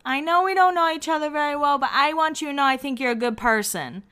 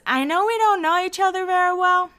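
First: Higher, lightly mocked tipsy Lauren; a touch of drunk sincerity; drunk pep talk. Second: High, lightly mocked tipsy Lauren; a hint of a drunk girl gushing; drunk pep talk. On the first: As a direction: keep gushing like a slightly drunk friend. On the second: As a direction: play the sloppy drunk friend being sweet. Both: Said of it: "a little drunk pep talk".

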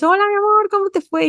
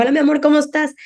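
First: Much higher, sing-song happy greeting; excited mom greeting. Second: Higher, bright sing-song hello; cheerful mom greeting. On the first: Mom picking up child from school, high excited greeting. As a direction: gush at your child like you missed them all day. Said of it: "tú llegas emocionada, feliz". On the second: Mother picking up daughter, cheery high-pitched hello. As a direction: greet your daughter brightly at the school gate. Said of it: "yo paso por mi hija". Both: Retold or imitated.

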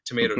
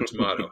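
First: First tomato said as to-MAY-to; American pronunciation. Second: Second tomato said as to-MAH-to; contrasting pronunciation. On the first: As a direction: say tomato with a long A. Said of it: "I say Magi". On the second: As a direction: say tomato with a broad AH. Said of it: "you can say Maggie". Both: Shown as a demonstration.

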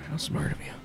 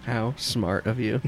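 First: Soft aside. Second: Slow drawl. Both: Acted.

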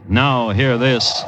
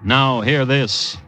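The two takes are said the same way.

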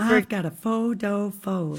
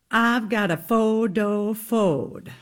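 First: Light Southern accent on "I've got a photo phode". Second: Lightly drawn-out Southern belle accent on "I've got a photo phode"; a hint of a slow Gone with the Wind Southern drawl. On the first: Repeating the actresses' Southern vocal coach phrase in the accent. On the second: Demonstrating the Southern accent drill from Gone with the Wind. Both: Shown as a demonstration. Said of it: "the phrase they had to say over and over to get in their Southern accent".

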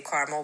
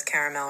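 First: Caramel said CAR-mul; two-syllable caramel. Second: Caramel said CARE-uh-mel; three-syllable caramel. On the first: South Jersey speaker showing local habit, caramel as CAR-mul. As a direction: drop the middle vowel of caramel. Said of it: "We always say caramel". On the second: Speaker quoting the spelled form, caramel as CARE-uh-mel. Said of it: "whether it says caramel or not". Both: Shown as a demonstration.

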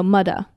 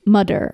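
First: "mudda" with d for th, no final r; Nigerian "mother". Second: "mudder" with a d for th and final r; Nigerian "mother". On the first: Correcting own Nigerian example, "mudda" without the r. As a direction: say "mudda", ending on an open ah. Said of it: "That's how they say mom". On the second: Suggesting Nigerian touch for the accent, "mudder". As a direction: say "mudder", hard d in the middle. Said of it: "but you say, like". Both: Shown as a demonstration.

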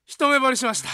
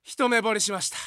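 First: Love confession bellowed even louder. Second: Love confession yelled out loud. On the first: Junior yelling his crush again, even louder. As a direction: belt it out at full volume. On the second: Junior loudly announcing love at first sight in the queue, shouting. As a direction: blurt the crush at full voice. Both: Retold or imitated. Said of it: "でっかいな、声。".

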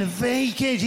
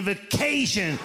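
First: "vacation" said VAY-kay-shun; stress on first syllable. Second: "vacation" said vay-KAY-shun, middle drawn out; stress on second syllable. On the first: Acted. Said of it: "right emphasis on the right syllable". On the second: Retold or imitated. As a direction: hit and stretch KAY in "vacation". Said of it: "He said".

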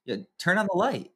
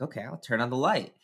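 First: Put-on higher, small bossy toddler voice; toddler son voice. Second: Said in the usual way. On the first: Dad voicing his toddler son's demand in a higher voice. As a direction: play the two-year-old waking from his nap. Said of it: "the first thing he says is". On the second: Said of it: "I'm like".

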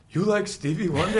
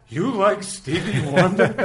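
First: Loud, high incredulous question; playful quoted outburst. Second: Loud, high, drawn-out question; incredulous mock outburst. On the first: Retold or imitated. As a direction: belt out the catchphrase at a quicker clip. Quoting punchline as siblings did. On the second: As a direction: cry it out slowly in amused disbelief. Character's punchline to the blazer.

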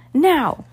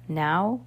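First: "Now" cried out high and loud; high, loud command on "Now"; shouted signal. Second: "Now" as a rising question; questioning call back. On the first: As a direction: shout "Now" as the urgent cue. Signal given to turn the submarine. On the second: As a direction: ask "Now" with a questioning lift. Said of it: "called back". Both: A narrator's reading.

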